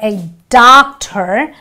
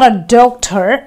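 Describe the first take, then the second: First: The first vowel sounds like the letter R. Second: The first vowel is a rounded O sound. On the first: The speaker calls it right. "but a doctor, wherein the R comes in from the O" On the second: The speaker calls it wrong. "and not a doctor"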